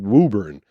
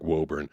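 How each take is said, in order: First: It is said the local, unexpected way. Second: It is said the way the spelling suggests. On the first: This is what the town is actually called. The speaker calls it right. "it's called Woburn" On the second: This is what the spelling suggests. The speaker calls it wrong. "definitely looks like Woburn"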